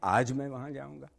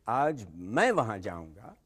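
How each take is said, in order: First: The stress is on the word आज. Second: The stress is on the word मैं.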